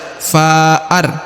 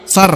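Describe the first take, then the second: First: A break splits the vowel before the r. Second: The vowel runs straight into the r. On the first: The speaker calls it wrong. "tidak dibaca fa'ar" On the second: The speaker calls it right. "tapi far langsung"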